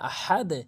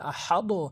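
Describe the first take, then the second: First: The final d is released with an 'e' sound. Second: The final d is released with an 'o' sound. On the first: The speaker calls it right. "আহাদে বলতে হবে" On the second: The speaker calls it wrong. "অধিকাংশ লোক ভুল করে বলে আহাদো"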